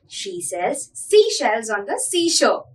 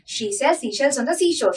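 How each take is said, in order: First: It is said at a moderate pace. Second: It is said at a very fast pace.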